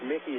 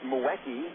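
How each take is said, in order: First: The first vowel is a short 'i' sound. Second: The first vowel is a 'u' sound. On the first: This is how the name is actually said. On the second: This follows the written spelling letter by letter.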